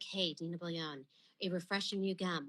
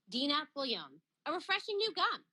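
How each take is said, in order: First: It is said in a moody tone. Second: It is said in a plain, neutral tone.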